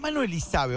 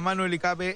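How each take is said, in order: First: The surname's middle consonant sounds like s. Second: The surname's middle consonant sounds like k. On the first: The speaker calls it right. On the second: The speaker calls it wrong.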